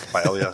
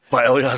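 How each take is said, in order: First: "Paella" swallowed into one quick syllable, "pla"; hurried, squashed "Paella"; rushed paella. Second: "paella" said out fully as "pal-ja", louder, laughing; laughing self-correction of "paella"; corrected paella with a laugh. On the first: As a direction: slur "Paella" fast as "pla". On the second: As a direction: redo "paella" properly as "pal-ja" with a chuckle. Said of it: "Paella, zo". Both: Real, not acted.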